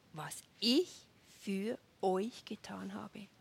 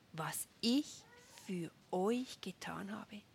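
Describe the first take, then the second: The two takes are said the same way.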